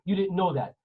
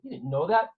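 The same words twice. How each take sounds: First: It is said flatly, as a plain fact. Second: It is said with a reproachful, judging tone. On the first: It just states that the listener lacked the information. "The script is" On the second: The listener should have known it already. "But the tone and the acting of it"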